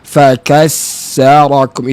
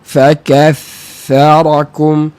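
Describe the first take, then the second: First: The middle consonant is a hissing s sound. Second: The middle consonant is a soft th sound. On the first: The speaker calls it wrong. "Dia akan bunyi seperti ini. ... itu sin" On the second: The speaker calls it right. "Saya ulang lagi sekali"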